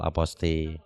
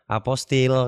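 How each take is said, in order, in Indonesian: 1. Kata "aposti" diakhiri tanpa bunyi l. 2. Kata "aposti" diakhiri dengan bunyi l. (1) "penyebutannya yang paling benar aposti" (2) "banyak yang sering salah melafalkan atau menyebutkan"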